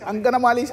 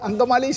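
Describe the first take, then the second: First: An extra 'na' syllable is inserted mid-word. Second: No extra syllable is inserted mid-word.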